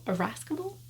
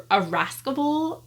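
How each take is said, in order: First: "irascible?" asked quietly, ending on a questioning rise; unsure pronunciation. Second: "irascible" tried higher in pitch, said as a statement; trying out a word. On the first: Reader asking viewers whether "irascible" is right, hushed and unsure. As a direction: check "irascible" with a soft, doubtful lift. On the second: Reader attempting "irascible" for the first time, tentative. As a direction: sound out "irascible" carefully. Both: Shown as a demonstration. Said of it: "I've never said that out loud".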